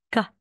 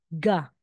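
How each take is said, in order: First: The consonant sounds halfway between k and g. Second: The consonant sounds clearly like g. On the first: The letter is at the start of a word. "In between po yung pagbigkas natin" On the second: The letter is in the middle of a word. "ga talaga po yan"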